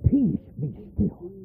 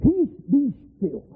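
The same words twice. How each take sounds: First: Slow, hushed "Peace, be still"; soft calming command. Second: High, slow command to the storm; calm the sea with slow authority; commanding Jesus. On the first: Shown as a demonstration. Preacher echoing Jesus, soft slow calm. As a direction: settle the storm softly. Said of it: "repeated command, slower and softer". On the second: Acted. Jesus rebuking the wind, slow high command. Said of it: "He raises up and said".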